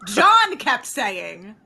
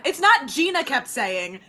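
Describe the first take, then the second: First: "John" stretched out slowly and emphatically; stress on John. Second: "Gina" picked out as the wrong name; stress on Gina. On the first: Friend blaming John for the mix-up, heavy slow stress on "John". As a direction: draw out "John" to shift the blame. Corrects who kept saying it. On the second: Friend correcting who said "That's Holly", stressing "Gina". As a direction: lean on "Gina" to dispute it. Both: Real, not acted.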